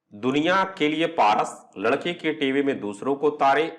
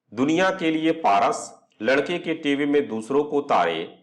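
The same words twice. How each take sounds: No difference in how they are said.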